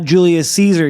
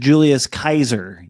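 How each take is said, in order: First: Caesar begins with a soft S sound. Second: Caesar begins with a hard K sound. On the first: The speaker calls it wrong. "he's not Julius Caesar" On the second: The speaker calls it right. "The C is always a k sound"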